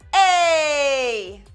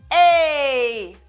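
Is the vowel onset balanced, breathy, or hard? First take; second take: hard; hard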